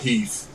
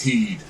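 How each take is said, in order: First: The word ends with a th sound. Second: The word ends with a d sound. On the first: The speaker calls it wrong. "it's not Heath" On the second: The speaker calls it right. "it's heed"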